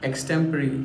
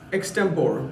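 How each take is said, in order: First: The word ends with a 'ree' sound. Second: The word ends with an 'or' sound. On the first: The speaker calls it right. "इसे बोलना चाहिए एक्सटेम्परी" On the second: The speaker calls it wrong. "इसे एक्सटेम्पोर नहीं कहा जाता"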